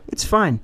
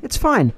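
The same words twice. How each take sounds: First: Said in the usual way. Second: Higher, patronising it's fine with a falling tune; mock reassurance. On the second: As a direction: sing it out like calming a scared kid. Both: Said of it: "I was like".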